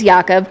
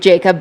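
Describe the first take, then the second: First: The name is said with a Swedish pronunciation. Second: The name is said with an American pronunciation. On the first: "but it is Jakob" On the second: "We can Americanize it to Jacob"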